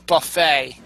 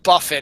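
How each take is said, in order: First: It is pronounced like the word for the meal. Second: It is pronounced like the surname Buffett. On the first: The speaker calls it right. "it's buffet" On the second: The speaker calls it wrong. "Not Buffett"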